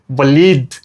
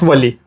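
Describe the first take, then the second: First: The name ends with a clear final d sound. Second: The name ends without a final d sound. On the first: The speaker calls it right. "you have to put stress on the D" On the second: The speaker calls it wrong. "not Wali"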